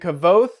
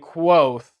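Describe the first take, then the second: First: The name begins with a 'kav' sound. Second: The name begins with a 'kw' sound. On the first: "when we get to the audiobook, it sounds like this" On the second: "he wants us to pronounce it with a Q"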